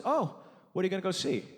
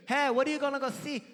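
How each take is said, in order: First: Said in the usual way. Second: High-pitched mock mom voice; imitating Korean mom. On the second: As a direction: pitch it up as a caricatured Korean mother. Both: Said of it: "she didn't say it like that".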